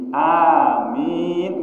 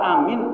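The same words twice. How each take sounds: First: The final vowel is long. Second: The final vowel is short. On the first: It means do not disappoint me, O God. The speaker calls it right. "min yang panjang" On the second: It means I am safe. The speaker calls it wrong. "amin itu artinya saya aman, makanya nggak boleh"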